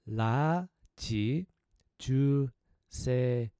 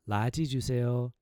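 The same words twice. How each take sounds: First: The phrase is said at a slower pace. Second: The phrase is said at a faster pace.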